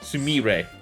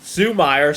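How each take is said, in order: First: The middle syllable has an 'ee' vowel. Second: The middle syllable has an 'ay' vowel. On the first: The speaker calls it right. "That's it" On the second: The speaker calls it wrong. "I recently was have been mispronouncing her name"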